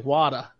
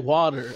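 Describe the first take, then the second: First: It is said with a Boston accent, r dropped. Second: It is said with a standard American accent. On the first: "I would say wada. ... my Boston accent comes out" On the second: "I wouldn't say water"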